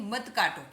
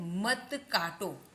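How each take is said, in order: First: Said in the usual way. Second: Slow, stretched example phrase; slow model. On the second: Shown as a demonstration. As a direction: read it out slowly for learners. Slow headword, later said in use. (धीरे-धीरे खींचकर पढ़ते हुए)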